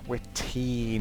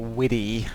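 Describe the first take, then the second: First: The middle consonant is a clear T sound. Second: The middle consonant is a soft D-like flap. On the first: The speaker calls it right. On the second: The speaker calls it wrong. "not Widdy"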